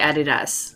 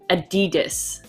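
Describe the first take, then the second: First: It is said with a British pronunciation. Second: It is said with an American pronunciation. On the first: This is how the British say it. "we say" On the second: This is how Americans say it. "my boyfriend says"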